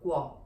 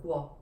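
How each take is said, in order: First: The g is followed by a w sound. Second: The g is followed by a w sound.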